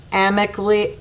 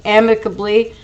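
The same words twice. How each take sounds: First: "amicably" cut short, losing a syllable; stumbled pronunciation. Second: Said in the usual way. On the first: Real, not acted. Narrator tripping over "amicably" while reading, mispronounced as "amic-ly". Stumbles on word, then repeats it.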